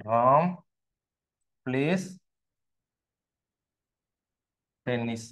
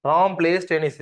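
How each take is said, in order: First: Long pause after Ram and after place; spaced out as if writing it; word-by-word dictation. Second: Said in the usual way. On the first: Shown as a demonstration. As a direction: dictate one word at a time. Dictates example while writing it.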